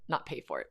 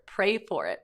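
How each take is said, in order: First: Correcting it to PAY; "pay" said flat and low with no R, the misheard word; stressing "not" and a plain "pay for it". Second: "pray" with a clear R, set against pay; correcting the kid to "pray for it". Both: Shown as a demonstration.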